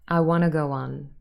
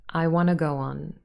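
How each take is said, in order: The two takes are said the same way.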